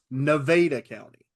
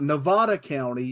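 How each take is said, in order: First: It is pronounced the local Southern way. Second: It is pronounced the standard, expected way. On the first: The speaker calls it right. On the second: The speaker calls it wrong. "it's not"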